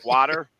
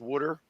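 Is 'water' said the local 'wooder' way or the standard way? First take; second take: standard; wooder. First: The first vowel is an open 'ah' sound. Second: The first vowel sounds like 'oo', as 'wooder'. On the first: "not water" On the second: "he's got some Delco in him"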